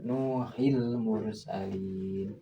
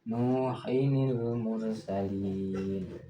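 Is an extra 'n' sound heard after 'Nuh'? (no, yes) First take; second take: no; yes. First: The two words join with no extra 'ni' sound. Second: An extra 'ni' sound links the two words. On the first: The speaker calls it wrong. "Itu salah kalau membacanya seperti itu" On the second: The speaker calls it right. "memunculkan nunnya, nun kasrahnya"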